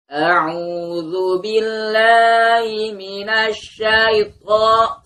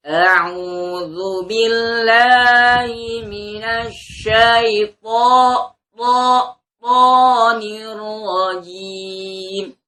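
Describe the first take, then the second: First: Very slow chanted ta'awwudh with breathy to; wrong ta'awwudh. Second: Very slow, chanted, to without breath; correct ta'awwudh. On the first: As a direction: demo the error, drawn out. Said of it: "to itu salah ya". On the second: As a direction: recite it properly, drawn out. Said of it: "ta'ud yang betul". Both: Shown as a demonstration.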